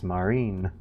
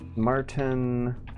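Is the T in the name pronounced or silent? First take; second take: silent; pronounced. First: The T sound in the name is silent. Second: The T sound in the name is pronounced.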